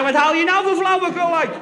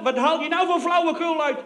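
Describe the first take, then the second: First: Higher, louder hammed-up bellow; the soldier mimicking the general, loudly; loud mock roar. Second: Raised, higher furious mock bark; a general yelling down the phone, hammed-up; mock roaring general. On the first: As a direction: throw the general's shout back at him. Speaker echoes the general louder. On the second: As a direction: bellow down the phone like an irate general. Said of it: "brult die gozer in mijn oor".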